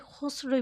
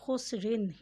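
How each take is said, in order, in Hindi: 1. शब्द अंतिम अंत के बिना रुक जाता है। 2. शब्द अंतिम '-in' अंत के साथ बोला जाता है। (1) "उस पर वफ़ भी कर सकते हैं" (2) "उसे हम मिलाकर भी अदा कर सकते हैं"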